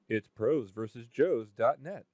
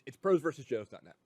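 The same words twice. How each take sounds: First: It is said slowly. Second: It is said fast.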